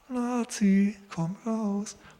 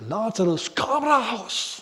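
First: The call is timid and hesitant. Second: The call is bold and commanding.

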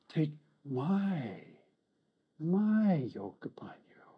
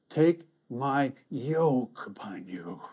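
First: It sounds like a warm invitation, stressing my. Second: It sounds like a heavy, reluctant obligation.

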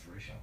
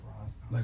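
First: The name ends with an 'sh' sound. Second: The name ends with a 'z' sound. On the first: The speaker calls it right. "it's Raish. I'm so sorry" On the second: The speaker calls it wrong. "I said Raz"

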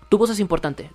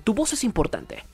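First: It is said flatly, without energy. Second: It is said with lively, dynamic energy.

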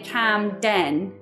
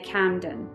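First: The final syllable has a full vowel. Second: The final syllable has a reduced vowel. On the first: The speaker calls it wrong. "We don't say Camden" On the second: The speaker calls it right. "we say Camden"

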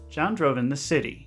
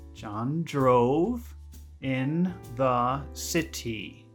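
First: It is said at normal conversational speed. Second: It is said slowly and deliberately.

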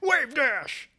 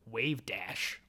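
First: It is said loudly and excitedly. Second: It is said at normal, quiet volume.

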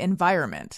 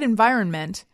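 First: The N before the last syllable is left out. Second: The N before the last syllable is clearly pronounced. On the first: "I don't think I normally pronounce that N. I think I say environment" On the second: "when you said environment"

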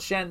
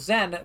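First: The name does not begin with a z sound. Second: The name begins with a z sound. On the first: The speaker calls it wrong. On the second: The speaker calls it right.

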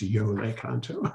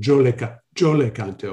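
First: It begins with a soft y sound. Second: It begins with a harder j sound. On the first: This is the formal pronunciation. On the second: This is everyday street pronunciation.

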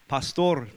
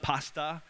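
First: It ends with a clear r sound. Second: It ends in a plain vowel with no r. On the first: It means a church leader. The speaker calls it right. "It's pastor" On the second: It sounds like the food. The speaker calls it wrong. "The Filipinos like to pick on our accents. It's not pasta"

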